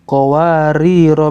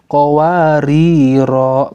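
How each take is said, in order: First: The final vowel is short, running into the next word. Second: The final vowel is held long before stopping. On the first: The reader continues to the next word. "kalau lanjut" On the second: The reader stops after this word. "Kalau kita berhenti"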